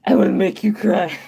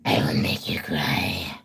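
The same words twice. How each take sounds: First: Demon voice. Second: Deep, voiceless demonic whisper; possessed demon whisper. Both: Shown as a demonstration. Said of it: "demon voice like Kitty Dog does".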